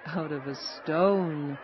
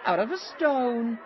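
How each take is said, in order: First: Grinning. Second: High-pitched wondering exclamation; amazed. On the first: Travelers answering the amazed woman, grinning. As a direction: repeat it slowly and knowingly, through a grin. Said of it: "said the travelers with a grin". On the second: Woman marvelling at soup made from stone, amazed. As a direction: say it high, as if astonished. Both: A narrator's reading.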